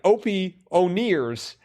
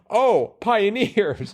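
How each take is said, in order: First: It is split as 'Opie' plus 'O'Nears'. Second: It is split as 'Oh' plus 'Pioneers'. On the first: The speaker calls it wrong. "I was like Opie O'Nears" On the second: The speaker calls it right. "which is exactly how it's supposed to be read"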